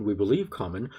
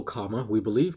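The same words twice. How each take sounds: First: Says the word common where comma was meant; common instead of comma. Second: The word comma said clearly, ending in uh; comma said correctly. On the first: Real, not acted. Dictating punctuation but saying the word common by mistake. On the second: Shown as a demonstration. Correcting the dictation slip by saying comma clearly. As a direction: say comma as punctuation, not common. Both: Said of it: "Why do I keep saying common?".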